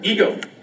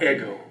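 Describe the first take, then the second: First: It does not sound like the waffle Eggo. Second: It sounds like the waffle name Eggo. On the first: The speaker calls it right. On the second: The speaker calls it wrong.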